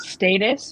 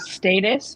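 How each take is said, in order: First: It is said with a British pronunciation. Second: The same.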